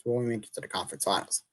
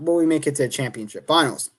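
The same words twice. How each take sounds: First: Much softer, fast, words swallowed by a yawn; real yawn. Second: Said in the usual way. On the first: Real, not acted. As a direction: mumble it through a real yawn, tired. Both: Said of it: "I'm yawning".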